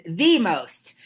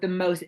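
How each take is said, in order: First: "the" said as a stressed "thee"; emphatic THE. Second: Said in the usual way. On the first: Shown as a demonstration. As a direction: lean on "the", pronouncing it "thee". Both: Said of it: "emphasis on the right syllable".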